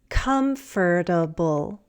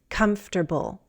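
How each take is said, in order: First: Every syllable of the word is pronounced. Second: One syllable of the word is dropped. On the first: "a longer one" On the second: "a shorter one"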